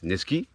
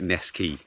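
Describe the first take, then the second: First: The name is said with a French accent. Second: The name is said with an English accent. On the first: "We might pronounce Neskey in a French accent" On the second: "phonetically it looks like Neskey"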